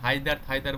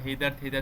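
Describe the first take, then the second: First: The first vowel sounds like 'eye'. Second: The first vowel sounds like 'ay'. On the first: "হায়দার থাইদার বা হেইদার থেইদার যেটাই বলো না কেন" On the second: "অনেকে এটা হেইদার থেইদার উচ্চারণ আহ, উচ্চারণ করে।"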